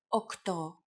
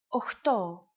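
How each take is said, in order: First: The middle cluster is pronounced kt. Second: The middle cluster is pronounced cht. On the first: It is the standard form. The speaker calls it right. "yours are more correct" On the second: It is the casual everyday form. The speaker calls it wrong. "especially in casual conversation"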